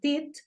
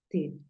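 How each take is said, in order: First: The word ends in a hard t sound. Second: The word ends in a soft dental th. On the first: The speaker calls it wrong. "No dices teeth" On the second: The speaker calls it right. "sino dices teeth"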